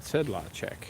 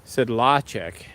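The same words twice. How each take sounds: First: Sedlacek with slight first-syllable emphasis; Czech pronunciation. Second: Sedlacek slow and loud on the middle LA; non-Czech pronunciation. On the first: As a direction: say Sedlacek almost evenly, SED a touch stronger. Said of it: "A little bit of emphasis on the first syllable". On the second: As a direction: say Sedlacek drawn out, sed-LAH-check. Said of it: "'Cause people say my last name". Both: Shown as a demonstration.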